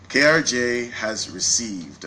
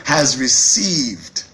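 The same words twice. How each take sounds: First: Said in the usual way. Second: "Has received" said slowly and louder, each word weighted; slow emphatic restatement. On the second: Shown as a demonstration. CEO repeating "Has received" to the crowd, slow and emphatic. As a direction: lean hard on "Has received", drawn out. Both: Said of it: "Let me say it one time".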